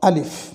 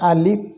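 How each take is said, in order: First: The word ends with an f sound. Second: The word ends with a p sound. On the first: The speaker calls it right. "উচ্চারণটা হবে আলিফ, স্বরে আ, লয় হিস্যি ফ" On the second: The speaker calls it wrong. "স্বরে আ, লয় হিস্যি প, এটি সম্পূর্ণ ভুল।"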